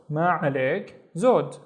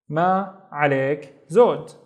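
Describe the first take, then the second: First: ما عليك زود quicker, in one flow; joined up. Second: Ma, عليك, زود with pauses between; word by word. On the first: Teacher repeating the response, ما عليك زود quicker. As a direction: run ما عليك زود together briskly. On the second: Teacher giving the polite response, ma عليك زود word by word. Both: Shown as a demonstration.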